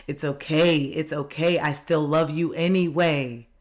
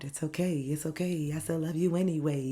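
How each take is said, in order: First: Said in the usual way. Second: Much softer, half whispered comfort; breathy whispered reassurance. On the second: Pretend. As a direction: hush it like soothing a scared child. Repeats comfort to inner child softly.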